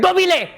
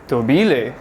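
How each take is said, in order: First: It is said loudly like an exclamation. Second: It is said like a question, rising.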